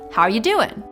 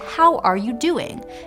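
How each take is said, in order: First: The words are run together and reduced. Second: Each word is said fully and clearly. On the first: "if you say this sentence casually" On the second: "less like how are you doing"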